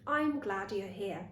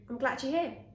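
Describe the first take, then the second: First: The word I'm is said fully with its diphthong. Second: The word I'm is shortened to a quick um. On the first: "That was I'm glad you're here" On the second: "But I've shortened it to"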